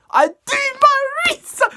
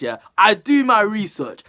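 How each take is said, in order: First: "I do my research" squeaked very high and loud; playful squeaky high boast; mock boast. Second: "I do my research" louder with weight on "do"; firm emphatic claim. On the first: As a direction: brag it in a silly high voice. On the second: Real, not acted. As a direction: insist on it, leaning on "do". Repeats boast seriously.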